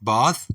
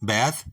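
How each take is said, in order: First: It is said with a British pronunciation. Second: It is said with an American pronunciation. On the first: "British English में पढ़ते हैं" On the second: "American pronunciation इसकी है"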